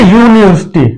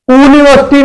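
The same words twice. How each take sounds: First: यूनिवर्सिटी begun with a "yoo" glide; Y-sound pronunciation. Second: यूनिवर्सिटी mispronounced as "oo-niversity", higher pitched; wrong OO pronunciation. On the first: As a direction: say यूनिवर्सिटी with a clear Y at the start, "yoo-ni". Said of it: "इसमें या का sound आ रहा है". (यूनिवर्सिटी की शुरुआत "य" की आवाज़ से) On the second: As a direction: drop the Y from यूनिवर्सिटी and open on a bare "oo". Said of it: "ऊ का साउंड नहीं आ रहा है". (यूनिवर्सिटी को ग़लत ढंग से "ऊनिवर्सिटी" बोलना) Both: Shown as a demonstration.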